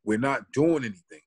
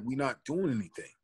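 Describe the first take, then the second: First: Triggered protest. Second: Quiet, restrained retort to the cop; calm protest. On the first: Retelling the moment he finally snapped at the cop, said firmly. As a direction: push back, fed up. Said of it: "something in me triggered". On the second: Retelling the first, held-back answer to the cop, said softly. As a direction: keep it down, don't provoke him. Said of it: "I'm like". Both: Retold or imitated.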